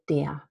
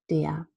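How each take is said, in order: First: The word ends with a vowel and deep schwa. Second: The word ends with a vowel and deep schwa.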